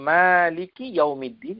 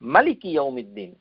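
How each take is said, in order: First: The first vowel of maliki is long. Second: The first vowel of maliki is short. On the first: "এভাবে তেলাওয়াত করি" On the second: "আলিফ না দিয়ে পড়েন"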